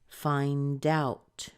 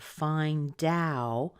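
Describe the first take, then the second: First: The final T sound is added. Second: The final T sound is left off. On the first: "Let's do that" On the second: "I didn't put the T on yet"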